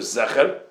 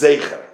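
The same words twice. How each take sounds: First: The first vowel is a plain e sound. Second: The first vowel is an ei sound. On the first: "either a segel" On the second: "or a tzeret"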